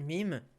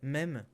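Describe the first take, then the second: First: It is said with an English vowel. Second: It is said with a French vowel. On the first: "on n'est pas obligé de dire mime" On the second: "on peut dire même quand on est français"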